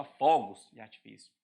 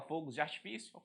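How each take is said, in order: First: "fogos" with its first vowel opened up. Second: Closed o in "fogos"; "fogos" with its first vowel closed, as a mistaken form. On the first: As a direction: open o in "fogos". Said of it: "Você fala". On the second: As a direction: say "fogos" softer with a tight closed o. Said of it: "Você não fala". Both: Shown as a demonstration.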